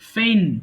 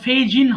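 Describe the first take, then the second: First: The g sound is left out entirely. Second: The g sound is pronounced in the middle. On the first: The speaker calls it right. "Silent letter এটা" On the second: The speaker calls it wrong. "এটা আবার ফেইজিন হবে না"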